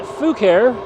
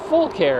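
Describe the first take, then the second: First: The name is said as 'foo-care'. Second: The name is said as 'full care'. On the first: "A lot of you pronounce it Fucare because it's spelled F U C A R E" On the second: "the company assured me that they want it pronounced Full Care"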